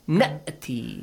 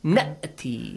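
First: The vowel before the hamza is short. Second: The same.

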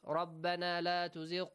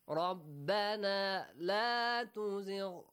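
First: It is read plainly, without emotion. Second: It is read with heartfelt, pleading feeling. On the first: It only conveys the literal meaning. "if you read it like" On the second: The reader is truly begging God. "it touches our heart"

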